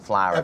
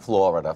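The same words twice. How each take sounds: First: The first syllable has an open 'ah' sound. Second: The first syllable has an 'or' sound. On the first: This is how the parents say it. "that's how they pronounce it" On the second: This is the usual way people say it. "not Florida"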